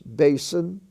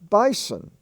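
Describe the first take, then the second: First: It is said with an American accent. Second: It is said with an Australian accent.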